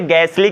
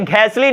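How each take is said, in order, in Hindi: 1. पहला व्यंजन सादा 'g' ध्वनि है। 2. पहले व्यंजन में फुसफुसाती 'h' ध्वनि है। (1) "क्योंकि अगेन एच साइलेंट हो जाएगा" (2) "इसे गैसली नहीं कहेंगे"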